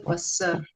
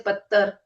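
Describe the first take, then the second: First: The middle consonant is an s sound. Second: The middle consonant is a plain t sound. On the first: "we don't say passar" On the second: "We don't say pattar"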